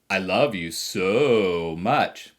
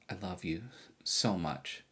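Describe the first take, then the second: First: It is said with a mocking, sarcastic tone. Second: It is said sincerely and warmly.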